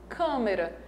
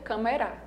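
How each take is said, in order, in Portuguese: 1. A tônica está na primeira sílaba. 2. A tônica está na última sílaba. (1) "a sílaba mais forte é a primeira" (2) "E se fosse a última"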